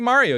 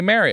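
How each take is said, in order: First: It has a general American vowel sound. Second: It has a Pennsylvania accent vowel sound. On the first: This is the way the other person cannot say it. "And you can't say Mario" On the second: This is how the other person says it. "You say Mario"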